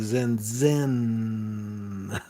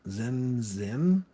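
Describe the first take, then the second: First: The final N sound is drawn out and exaggerated. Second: The final N sound is short and plain.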